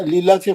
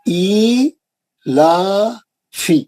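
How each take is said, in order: First: The long vowels are rushed and kept short. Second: The long vowels are drawn out for two beats. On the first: The speaker calls it wrong. "फटाफट शुरू कर देते हम लोग, पढ़ते ही नहीं उसको दो हरकत" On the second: The speaker calls it right. "अलिफ दो हरकत नीचे जा रहा है, लाम दो हरकत ऊपर जा रहा है"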